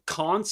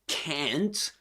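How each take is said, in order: First: It is said in a Southern British accent. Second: It is said in an American accent. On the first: "so can't in British English, in Southern Standard British English" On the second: "and can't in American English"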